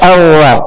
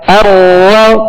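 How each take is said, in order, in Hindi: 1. r में बिल्कुल कंपन नहीं है। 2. r में हल्की सी, थोड़ी कंपन है। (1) "मुशाबत तकरार के बगैर अदा करेंगे तो रा औवा पढ़ा जाएगा" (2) "रा में कपकपाहट सी होगी"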